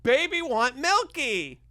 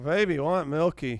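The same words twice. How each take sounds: First: It is said in a triumphant way. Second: It is said in an exhausted way.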